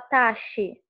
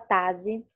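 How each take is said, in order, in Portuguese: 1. A consoante do meio tem som de sh. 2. A consoante do meio tem som de z. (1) "Ele não tem um som chiado como de xícara. Você não fala taxi" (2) "ele não tem o som de Z, você não fala tazi"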